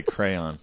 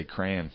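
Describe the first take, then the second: First: "crayon" as cray-on; two-syllable crayon. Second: "crayon" said as "cran"; one-syllable crayon. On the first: Admitting his trouble word, "crayon" as cray-on. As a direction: spell out both syllables of "crayon", slowly. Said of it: "I can't say crayon". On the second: Correcting co-host's word, "crayon" as cran. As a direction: squash "crayon" to rhyme with fan, softly. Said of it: "I just say crayon". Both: Shown as a demonstration.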